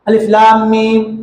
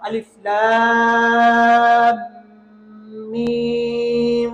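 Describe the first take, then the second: First: The meem is short, without a long nasal hold. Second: The meem is lengthened and doubled with a nasal hold. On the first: The speaker calls it wrong. "सब गलत है।" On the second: The speaker calls it right. "लाम को जितना खींचना है मीम को भी उतना ही खींचना है। ... गुन्ना करना होगा"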